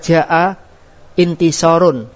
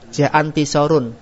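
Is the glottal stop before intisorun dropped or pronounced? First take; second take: pronounced; dropped. First: A glottal stop separates jaa from intisorun. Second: Jaa runs straight into intisorun without a stop. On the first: The speaker calls it right. "Contohnya jaa intisorun" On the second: The speaker calls it wrong. "Enggak boleh antum mengucap jaantisorun"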